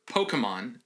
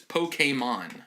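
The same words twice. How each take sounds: First: It is said in a quick, clipped, southern way. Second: It is said in the standard, careful way. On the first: "if you're in a hurry or if you know you're from the southeastern United States" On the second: "the correct pronunciation is Pokemon"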